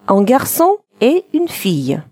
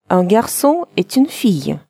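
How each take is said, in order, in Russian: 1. Слова произносятся раздельно, без связывания. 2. Слова связываются вместе, в одно целое. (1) "Мальчик и девочка" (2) "Сделаем ненужную связку, получится"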